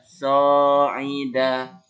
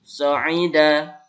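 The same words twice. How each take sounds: First: The vowels are stretched out long. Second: The vowels are short and crisp. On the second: "Cara bacanya"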